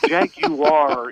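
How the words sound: It uses the official, non-American pronunciation. This is the brand's official pronunciation. "Jaguar is official"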